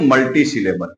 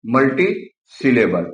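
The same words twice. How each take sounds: First: Said in the usual way. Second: मल्टीसिलेबल said slowly with each part separate; slow, syllable by syllable. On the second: Shown as a demonstration. Teacher slowly repeating मल्टीसिलेबल for students. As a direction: stretch मल्टीसिलेबल out for the class.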